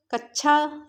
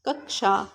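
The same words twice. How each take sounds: First: कक्षा said carefully as kək-sha, with the full क्ष cluster; correct pronunciation. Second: कक्षा said again lower, a crisp retroflex kəkʂa; repeated pronunciation. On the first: Teacher showing students how कक्षा is spoken, careful and clear. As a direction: spell out कक्षा slowly, every sound clear. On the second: Teacher repeating कक्षा for students to copy, lower and firm. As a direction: drop the pitch and land a firm, crisp क्ष in कक्षा. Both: Shown as a demonstration. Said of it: "शुद्ध उच्चारण है".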